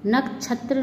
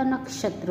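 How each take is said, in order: First: नक्षत्र with chh for sh; mispronounced. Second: Said in the usual way. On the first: Shown as a demonstration. Teacher showing students an error, नक्षत्र mispronounced with chh. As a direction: say नक्षत्र as "nak-chhatra". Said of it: "नहीं होता". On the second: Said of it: "होता है".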